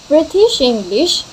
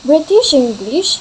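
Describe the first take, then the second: The two takes are said the same way.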